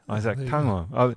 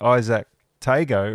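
First: The middle consonant is an NG sound. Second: The middle consonant is a hard G sound.

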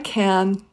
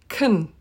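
First: The vowel is a full open a. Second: The vowel is reduced to a short uh. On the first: "you can use a full a" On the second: "or even kun"

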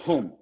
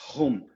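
First: The word begins with an h-like sound. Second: The word begins with an h-like sound.

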